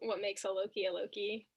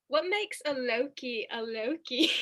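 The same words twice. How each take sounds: First: It is said in the speaker's own voice. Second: It imitates the character's accent and voice.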